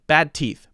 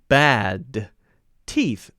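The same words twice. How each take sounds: First: The D is held and linked into T. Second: The D is released with a gap before T. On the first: The speaker calls it right. "I'll jump directly to the T and say it without any gap" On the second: The speaker calls it wrong. "That sounds strange because I'm letting the D go, and then there's a weird space between the D and the T"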